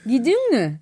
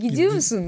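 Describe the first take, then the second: First: The ending is clipped and swallowed. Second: The ending is fully pronounced.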